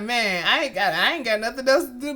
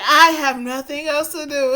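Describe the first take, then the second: First: Fast, careless shrug of a line; casual carefree. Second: Imitating the sad pitiful reading; mock pitiful. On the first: Retold or imitated. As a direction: toss it off like it's no big deal. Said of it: "saying it like". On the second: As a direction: parrot her pitiful tone, teasing. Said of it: "the way that you read that sounds so damn sad and pitiful".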